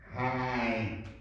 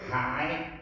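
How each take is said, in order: First: It carries the tone of the word for shoe. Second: It carries the tone of the word for harmful. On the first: It means shoe. "c'est chaussure" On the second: It means harmful. "c'est nuisible"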